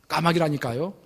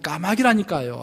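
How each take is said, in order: First: It sounds slightly curt and short. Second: It sounds clearly irritated and annoyed. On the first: The speaker is a little impatient. "약간 퉁명스럽게" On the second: The speaker is openly annoyed. "짜증스러운 목소리로"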